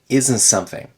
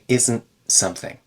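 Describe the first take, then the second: First: The T in isn't is dropped completely. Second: The T in isn't is a glottal stop. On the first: "if I say this faster, I might say isn't something and remove the T entirely" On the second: "if I'm speaking a little slower and clearer, I'll say isn't something"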